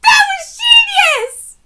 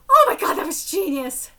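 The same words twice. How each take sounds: First: High, loud, slow hyped shout; excited yell. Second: Said in the usual way. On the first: Real, not acted. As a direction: drag out genius in awe.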